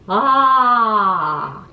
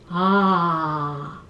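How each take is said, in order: First: It is said at a middle pitch. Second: It is said at a low pitch.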